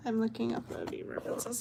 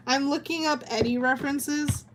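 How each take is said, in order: First: Softer and faster, muttered to herself; hushed quick self-repeat; quick quiet repeat. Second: Said in the usual way. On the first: Real, not acted. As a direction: rattle it off softly under her breath.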